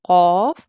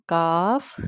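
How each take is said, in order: First: قاف loud and rounded, from back of throat; full, long قاف; thick, bold letter. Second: کاف with open "aa"; thin, easy کاف; light, thin letter. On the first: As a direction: say قاف heavy as "qawf". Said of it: "اس کو موٹا پڑھا جاتا ہے". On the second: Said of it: "اس کو light باریک پڑھا جاتا ہے". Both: Shown as a demonstration.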